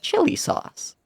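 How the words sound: The pitch goes up and down noticeably. "It's him going chili sauce"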